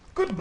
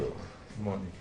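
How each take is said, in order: First: It is said in a livelier, energetic way. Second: It is said in a flat, plain way.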